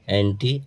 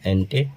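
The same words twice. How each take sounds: First: एंटी said as "anti", ending in a long ee sound; anti meaning against. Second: एंटी said as "ante", ending in a short e sound; ante meaning before. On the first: Teacher telling students the prefix anti means against, clear demo. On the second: Teacher telling students the prefix ante means before, clear demo. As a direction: end एंटी on e, not ee. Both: Shown as a demonstration. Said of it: "उच्चारण में थोड़ा गड़बड़ है".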